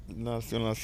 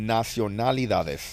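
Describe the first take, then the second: First: Nacionalidades garbled into nasionasi, trailing off quietly; tongue trips on "nacionalidades"; stumbled word. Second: "Nacionalidades" said slowly and carefully, every syllable right; careful slow retry. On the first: Real, not acted. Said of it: "Hay que desbloquear". ("nacionalidades" trabado y mal dicho) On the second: Shown as a demonstration. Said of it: "Palabra desbloqueada". ("Nacionalidades" dicho despacio y bien)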